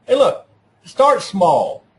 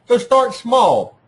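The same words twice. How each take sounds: First: "start small" said slowly, each word pressed down; slow down and lean on "start small"; slow emphatic advice. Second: "start" hit hard, "small" drawn out slowly; slow emphatic repeat. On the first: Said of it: "teacher stressing key advice". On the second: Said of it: "teacher repeating key advice". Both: Shown as a demonstration.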